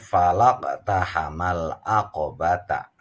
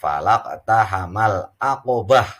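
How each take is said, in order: First: The last word ends with a full ta syllable. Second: The last word ends with a soft h sound. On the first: The reading continues into the next verse. "al-waslul ula, dibaca sambung lebih utama" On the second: The reading stops at the end of the verse. "kalau misalnya dibaca waqaf"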